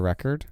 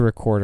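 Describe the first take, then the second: First: It is pronounced as the noun form. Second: It is pronounced as the verb form. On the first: A released album. "the second one's always the noun" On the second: To capture sound. "the first one is always the verb"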